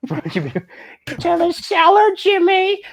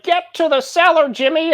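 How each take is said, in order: First: Very high, slow drawn-out yell; cartoonish high shout for Jimmy; Carl voice. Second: High, loud frantic cry; high-pitched call for Jimmy; old movie shout. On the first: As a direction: stretch it into a goofy high call. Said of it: "turned into Carl". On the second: Acted. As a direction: yell it like a panicked movie hero. GM voicing panicked old-movie character.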